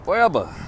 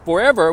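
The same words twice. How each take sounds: First: The word is drawled and lengthened. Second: The word is said without a drawl. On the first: "we say forever" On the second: "instead of we saying forever"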